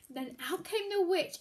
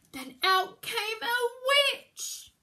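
First: Said in the usual way. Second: Slow, loud build on out came a witch; dramatic reveal. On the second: A narrator's reading. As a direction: draw out the entrance slowly and loudly.

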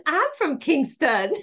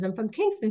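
First: High, drawn-out delighted exclamation; excited student. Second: Said in the usual way. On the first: Retold or imitated. Student finds her teacher shares her hometown, excitedly. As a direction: squeal it slowly, thrilled at the coincidence. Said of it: "She goes". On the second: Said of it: "And I says".

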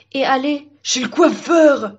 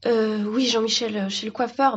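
First: Slow, drawn-out eager cry; overexcited tree butting in; excited interjection. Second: Said in the usual way. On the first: Acted. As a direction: blurt it out, stretched with glee.

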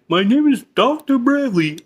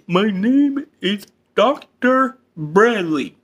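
First: Said in the usual way. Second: Each word of "My name is Doctor Bradley" dragged out; slow emphatic repeat. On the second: Acted. Therapist to George, repeating his name slowly. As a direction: slowly spell it out.

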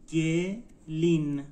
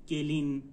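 First: گلین slowly as گ, pause, لین; slow teaching demo of گلین, split in two; syllable by syllable. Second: Said in the usual way. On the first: Shown as a demonstration. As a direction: sound out گلین in two separated beats. Teacher breaks word into syllables.

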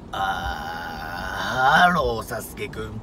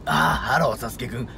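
First: Creaky low fry before the phrase; vocal fry. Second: Low creaky voice mixed into speech; vocal fry. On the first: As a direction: rattle the fry, then speak. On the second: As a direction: let the fry rattle through the words. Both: Shown as a demonstration. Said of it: "こういう声を普通の声に混ぜると". (エッジボイス混じりの声)

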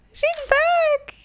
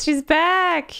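First: Much higher, thrilled shout; excited. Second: Higher, happy laugh through words. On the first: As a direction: cheer her return. Ami wakes up. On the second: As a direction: laugh with relief. Laughs while repeating. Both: Real, not acted.

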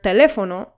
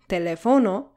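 First: "teléfono" with LÉ punched louder; antepenultimate stress. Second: "teléfono" mispronounced as te-le-FO-no; misplaced stress. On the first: Teacher showing the correct word, stress on LÉ. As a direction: stress "teléfono" on the third-to-last syllable, LÉ. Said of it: "has the stress syllable on the third to last syllable". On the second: Teacher showing what happens without the accent, stress wrongly on FO. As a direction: shift the stress in "teléfono" onto FO. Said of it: "that's not how we should pronounce". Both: Shown as a demonstration.

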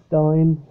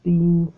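First: Stein said as stine; usual pronunciation. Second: Stein said as steen; alternative pronunciation. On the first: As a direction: give stein an eye vowel. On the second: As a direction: give Stein a long ee vowel. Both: Shown as a demonstration. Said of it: "however it's pronounced".

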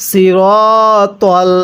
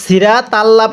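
First: Very slow সিরতল with rounded "ro" and "tol"; correct heavy letters. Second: Quick সিরা তাল্লা with thin s, ra and ta; mistaken reading. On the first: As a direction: stretch the dark "ro" in সিরতল. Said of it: "তাহলে কিভাবে পড়ব". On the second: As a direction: say সিরা তাল্লা lightly with open a vowels. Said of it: "একটা ভুল করি". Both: Shown as a demonstration.

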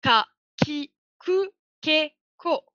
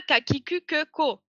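First: Ku said kou, Ke said ké; correct Japanese reading. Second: Ku with the French u, Ke as a French schwa; wrong French reading. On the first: Teacher correcting students with the Japanese reading of the K line. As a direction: read Ka, Ki, Ku, Ke, Ko with ou and é. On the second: Teacher showing students the mistaken French reading of the K line. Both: Shown as a demonstration.

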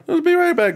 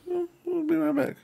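First: Louder high falsetto call; high singsong call. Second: Soft high falsetto; high soft singsong. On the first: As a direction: sing it out up high. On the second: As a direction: croon it softly up high. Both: Pretend. Repeats in a different voice.

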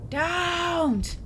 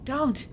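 First: High, louder cry of dread; frightened plea. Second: Said in the usual way. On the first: Real, not acted. Player begging the creature, frightened cry. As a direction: plead with the thing not to come.

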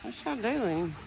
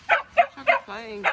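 First: Said in the usual way. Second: High, slow sing-song dog talk. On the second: Real, not acted. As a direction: coo at the puppies like babies. Talking to dogs, repeated.

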